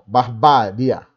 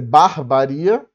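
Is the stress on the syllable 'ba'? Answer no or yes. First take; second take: yes; no. First: The stress is on the syllable 'ba'. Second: The stress is not on the syllable 'ba'. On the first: The speaker calls it right. "barbária, que é uma paroxítona" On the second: The speaker calls it wrong. "não dá para ser barbaria, né? Não, não faz o menor sentido"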